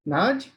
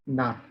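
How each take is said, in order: First: The word ends in a j sound. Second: The word ends in a t sound. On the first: The speaker calls it wrong. "This is Naj or Nat" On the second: The speaker calls it right. "It is Nat"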